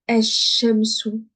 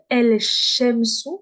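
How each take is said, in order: First: The L merges into a doubled sh sound. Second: The L of the article is clearly pronounced. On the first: The speaker calls it right. "Le lem, je le prononce pas. Je vais dire esh-shamsu" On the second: The speaker calls it wrong. "je vais pas dire el-shamsu. Je ne dis plus el"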